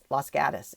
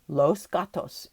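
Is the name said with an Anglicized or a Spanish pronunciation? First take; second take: Anglicized; Spanish. First: The name is pronounced in flat Americanized style. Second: The name is pronounced the Spanish way. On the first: "if you say it in Californian" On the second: "if you are saying it in Spanish"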